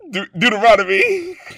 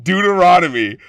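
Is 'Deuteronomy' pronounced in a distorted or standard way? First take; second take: distorted; standard. First: The word is pronounced in an unusual, distorted way. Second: The word is pronounced in the usual standard way. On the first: The speaker calls it wrong. "it's pronounced so wrong" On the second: The speaker calls it right. "Apparently he's saying Leviticus and Deuteronomy"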